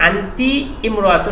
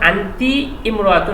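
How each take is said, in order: First: The 'i' of imra'atun is pronounced separately. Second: The 'i' of imra'atun is pronounced separately.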